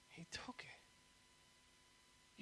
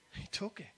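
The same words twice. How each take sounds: First: Very soft, drawn-out whisper; hushed repeat. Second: Said in the usual way. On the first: Real, not acted. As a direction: drop to a slow, reverent hush.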